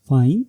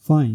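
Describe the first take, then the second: First: It sounds like a question. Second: It sounds neutral. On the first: It asks whether someone is sure. "ये question को represent करता है" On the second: It means okay. "Neutral में हम use करते हैं ओके।"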